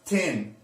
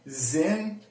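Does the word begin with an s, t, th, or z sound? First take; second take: t; z. First: It begins with a hard t sound. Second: It begins with a buzzing z sound. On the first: "it's not tin" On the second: "it's not zin"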